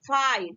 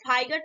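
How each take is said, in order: First: The gh is silent in the middle. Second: The gh is sounded in the middle. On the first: The speaker calls it right. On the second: The speaker calls it wrong.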